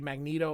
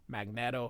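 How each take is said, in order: First: The middle syllable sounds like "neet". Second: The middle syllable sounds like "net". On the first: The speaker calls it wrong. "Magneto would be M A G N E E T O" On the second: The speaker calls it right. "is the correct pronunciation. It's Magnet with an O"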